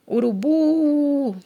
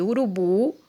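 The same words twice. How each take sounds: First: URUBU with the final BU held long and higher; drawn-out stress. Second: Said in the usual way. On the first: Shown as a demonstration. Teacher shows class the stressed syllable, BU drawn out in URUBU. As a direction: stretch the BU of URUBU like a call. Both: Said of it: "A sílaba tônica é o bu".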